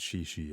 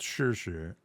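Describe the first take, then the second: First: The syllable sounds like English 'she'. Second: The syllable sounds like English 'sure'. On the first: The speaker calls it wrong. "it's not she she" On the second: The speaker calls it right. "you pronounce it like sure"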